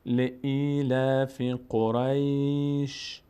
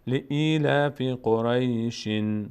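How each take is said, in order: First: "لإیلاف قریش" recited slowly, stopped on a bare sh; pausal recitation. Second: "لإیلاف قریشن" recited slowly with a final -in tanwin; continuing recitation. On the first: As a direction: stretch the long vowels of "لإیلاف قریش" and end on vowelless ش. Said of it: "این وقتی است که ما اینجا توقف بکنیم". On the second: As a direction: stretch "لإیلاف قریشن" and voice the n after ش. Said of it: "اما اگر بخوایم ادامه بدیم". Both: Shown as a demonstration.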